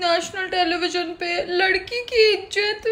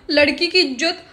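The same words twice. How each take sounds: First: Mock lament. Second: Said in the usual way.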